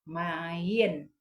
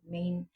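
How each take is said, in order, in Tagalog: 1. Binibigkas ito bilang dalawang pantig, 'ma-yen'. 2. Binibigkas ito bilang isang pantig, gaya ng 'main'. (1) "Pero sa ilaha is mayen" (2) "sa kuan pag sa English is main"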